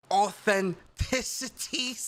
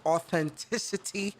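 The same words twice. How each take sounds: First: Slow, drawn-out "authenticity" with a lisp; put-on lisp. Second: Said in the usual way. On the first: Shown as a demonstration. Gamer imitating Mike's lisp on "authenticity", slow lisped delivery. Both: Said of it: "Put my lisp on it".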